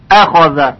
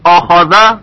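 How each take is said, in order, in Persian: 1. همزهٔ آغازین مرقق و نازک است. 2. همزهٔ آغازین مفخم و سنگین است.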